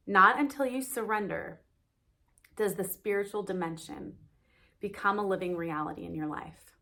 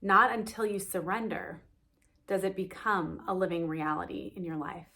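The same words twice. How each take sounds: First: "Not until you surrender" set off firmly, then pauses; re-emphasized. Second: Said in the usual way. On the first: Shown as a demonstration. Teacher repeats the quote's last line to listeners, re-emphasized. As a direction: read it deliberately, pausing after "surrender" and "dimension". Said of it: "I want to re-emphasize the last line".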